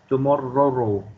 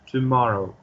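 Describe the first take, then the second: First: The middle r sound is held long. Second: The middle r sound is short. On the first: The speaker calls it wrong. "I'm not going to say tomorrow" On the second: The speaker calls it right. "I'm just going to pronounce it at just one ra sound"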